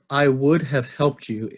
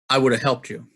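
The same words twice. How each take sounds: First: Every word is said fully and separately. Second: 'Would have' is reduced to 'woulda'. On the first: "I read that the way a computer or a robot would read" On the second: "The first pattern"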